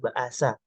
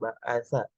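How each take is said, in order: First: The word has a plain 's' sound in the middle. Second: The word has a 'th' sound in the middle. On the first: The speaker calls it wrong. "yang salah itu" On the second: The speaker calls it right. "kalimat benar"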